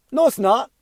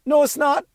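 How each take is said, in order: First: High, sharp denial pitched well up; indignant protest. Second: Climbs even higher, no rising in outrage; rising indignation. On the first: Defending his son to the mother, high indignant no. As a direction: shoot it down hard in disbelief. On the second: Pushing back again at the mother, higher and more outraged. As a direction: repeat it, more exasperated and higher. Defending son to his mother. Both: Retold or imitated.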